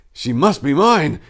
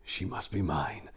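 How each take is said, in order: First: Repeated louder, stress on mine, slow. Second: Whispered. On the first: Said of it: "in a louder tone". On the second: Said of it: "whispered the Ophirian prince". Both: A narrator's reading.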